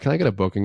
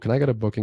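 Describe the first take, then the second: First: The voice is lively and expressive. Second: The voice is flat and monotone. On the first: The speaker calls it right. "Sound like that" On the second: The speaker calls it wrong. "Do not sound like this"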